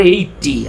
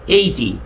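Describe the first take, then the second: First: এইটটি with a doubled, held t; এইটটি, lean hard on a double t; mock wrong pronunciation. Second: এইটি said with a single t, eigh-ty; এইটি, one clean t sound, no doubling; correct pronunciation. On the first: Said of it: "এখানে কি দুইটা টি আছে?". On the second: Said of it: "এটার উচ্চারণ কি?". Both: Shown as a demonstration.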